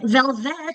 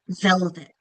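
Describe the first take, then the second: First: The stress is on the second syllable. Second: The stress is on the first syllable. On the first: The speaker calls it wrong. "It's not velvet" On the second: The speaker calls it right. "That second syllable has less um, emphasis because it's unaccented"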